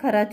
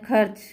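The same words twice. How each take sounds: First: The r is followed by a full vowel. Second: The r is said without any vowel. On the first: The speaker calls it wrong. "अगर पूरा होता फिर क्या हो जाता? खर्च हो जाता, तो वो सही उच्चारण नहीं होता" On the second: The speaker calls it right. "मतलब ये इसका उच्चारण आधा आ रहा है"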